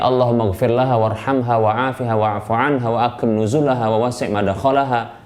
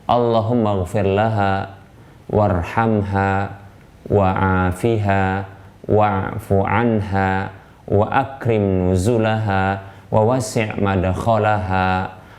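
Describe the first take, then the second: First: It is recited at an ordinary, quicker pace. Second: It is recited slowly and deliberately.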